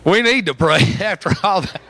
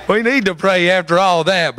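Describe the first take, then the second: First: Laughing. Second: Said in the usual way. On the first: Real, not acted. Preacher giggling to the church after the joke. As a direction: pray said through a laugh.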